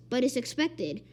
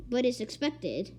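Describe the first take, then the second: No difference in how they are said.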